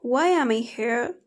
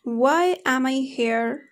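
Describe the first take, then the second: First: "am" short, linked into "I"; weak form. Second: Slow, with "am" said in full; strong form. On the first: Teacher showing learners weak forms, "am" quick and reduced. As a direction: run "why am I" together. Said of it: "But in a weak form". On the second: Teacher showing learners the full form, slow separate "am". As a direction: give "am" its whole vowel, word by word. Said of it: "For example". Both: Shown as a demonstration.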